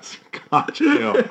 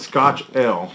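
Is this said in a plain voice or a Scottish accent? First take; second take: Scottish; plain. First: It is said in a heavy Scottish accent. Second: It is said in a plain, regular voice.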